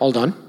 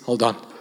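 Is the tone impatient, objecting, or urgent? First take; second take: objecting; urgent. First: The voice sounds doubtful and objecting. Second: The voice sounds urgent and warning. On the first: The speaker disagrees with what was just said. "if somebody says something you don't agree with, you go" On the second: The speaker is telling someone to grip tight for safety. "you're taking a boat ride or a parachute jump, and the final instruction is"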